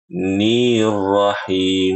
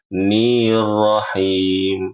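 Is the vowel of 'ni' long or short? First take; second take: long; long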